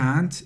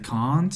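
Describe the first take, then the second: First: It is said with an American accent. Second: It is said with an English accent.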